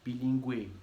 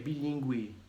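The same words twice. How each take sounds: The two takes are said the same way.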